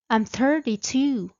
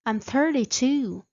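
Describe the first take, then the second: No difference in how they are said.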